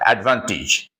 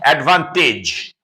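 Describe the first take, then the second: First: The final syllable has a soft, weak vowel. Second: The final syllable has a full, strong vowel. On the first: The speaker calls it right. "but advantage. Soft E, soft E, very soft" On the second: The speaker calls it wrong. "do not pronounce advantage"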